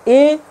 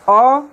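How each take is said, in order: First: The vowel is a full ay sound. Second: The vowel is a short reduced uh sound. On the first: "ए इसका strong form है" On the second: "अ इसका weak form है"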